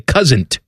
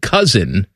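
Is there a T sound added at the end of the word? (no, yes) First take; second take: yes; no. First: A T sound is added after the N. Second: The word ends in an N sound. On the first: This is how someone else habitually said it. The speaker calls it wrong. "he would say cousin't" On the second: This is the usual way to say it. The speaker calls it right. "instead of saying cousin"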